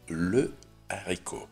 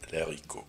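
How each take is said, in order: First: The article keeps its vowel before the noun. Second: The article loses its vowel before the noun. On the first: The speaker calls it right. "Вот одна фасолинка – это «le арико»" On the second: The speaker calls it wrong. "но ни в коем случае не «l'арико»"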